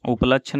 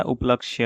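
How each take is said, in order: First: उपलक्ष्य ending in "lachchh"; ch for ksh. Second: उपलक्ष्य with "kshy"; ksh cluster. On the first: Teacher showing the mistake, उपलक्ष्य with a ch ending. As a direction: say उपलक्ष्य as upalachchh. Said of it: "उपलक्ष्य नहीं होता". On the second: Teacher correcting the word, उपलक्ष्य with clean ksh. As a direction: click k into sh in उपलक्ष्य. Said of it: "उपलक्ष्य होता है". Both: Shown as a demonstration.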